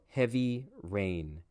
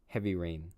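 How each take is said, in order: First: The phrase is said slowly and carefully. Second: The phrase is said in a relaxed way. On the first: This is overly clear teacher English. "the teacher English" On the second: This is how a native speaker talks. "How would I say it normally?"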